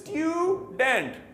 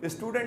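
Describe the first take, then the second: First: The first vowel is a 'yoo' sound. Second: The first vowel is a plain 'oo' sound. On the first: The speaker calls it right. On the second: The speaker calls it wrong.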